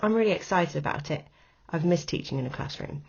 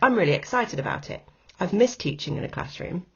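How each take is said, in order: First: The second clause sounds emotive, like an afterthought. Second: The two clauses sound separate, each one complete.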